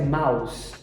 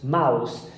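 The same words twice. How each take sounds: No difference in how they are said.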